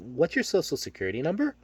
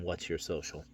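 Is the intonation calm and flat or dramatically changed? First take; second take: changed; calm. First: The intonation shifts, sounding weird and loaded. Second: It is said in a calm, flat monotone.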